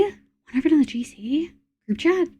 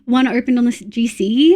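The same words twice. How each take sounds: First: Higher, softer, drawn out, rising at the end; surprised echo question. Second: Said in the usual way. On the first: Real, not acted. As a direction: query it slowly in disbelief. Repeats the news as a question.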